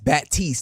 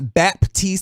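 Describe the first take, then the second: First: The name is said without a p sound. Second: The name is said with a p sound. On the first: The speaker calls it right. "There's no P in there" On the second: The speaker calls it wrong.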